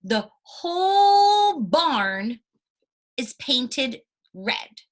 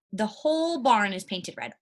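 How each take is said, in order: First: Whole stretched long, high and loud, then slow; stress on whole, drawn out. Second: Said in the usual way. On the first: Shown as a demonstration. Teacher to class, slowly stretching the example sentence. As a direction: drag out the word whole, very slowly.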